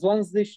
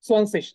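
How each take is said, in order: First: The first sound is a buzzing z-like sound. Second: The first sound is a hissing s-like sound. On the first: The speaker calls it wrong. "আমরা জোয়ানশিশ বা সামথিং এরকম কিছু বলতেছি না" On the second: The speaker calls it right. "আমাদের জেড এর যে উচ্চারণ সেটা হচ্ছে এস এর মতো"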